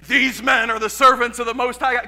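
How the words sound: It is said in a deep, angry voice.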